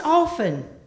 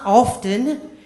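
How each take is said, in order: First: The T sound is left silent in the word. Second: The T sound is pronounced in the word. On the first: The speaker calls it right. "the T in that word is silent" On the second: The speaker calls it wrong. "It's not often"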